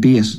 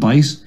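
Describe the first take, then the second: First: The vowel is a long 'ee' sound. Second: The vowel is an 'eye' sound. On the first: The speaker calls it wrong. "I kept saying "beat," like B-E-I-T instead of" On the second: The speaker calls it right. "instead of "bite.""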